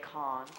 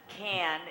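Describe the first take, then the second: First: Cannes is said with a British-style vowel. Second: Cannes is said with an American-style vowel. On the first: "the British say con" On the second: "can is what the Americans say, and that's not right either"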